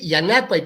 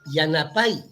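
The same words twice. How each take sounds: First: The stress is not on the final syllable. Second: The stress is on the final syllable. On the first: It means help. The speaker calls it right. "hay que decir Yanapay" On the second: The speaker calls it wrong. "los noticieros los pronuncian"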